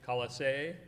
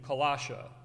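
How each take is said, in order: First: The name ends with an 'ee' sound. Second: The name ends with an 'uh' sound. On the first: The speaker calls it right. "but I guess it is technically" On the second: The speaker calls it wrong. "I grew up saying Colossia"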